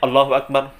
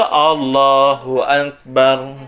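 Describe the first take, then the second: First: The phrase is cut short and said lazily. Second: The phrase is said at a moderate length. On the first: The speaker calls it wrong. "Kependekan juga tidak boleh. ... malas-malasan sekali" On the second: The speaker calls it right. "yang betul itu"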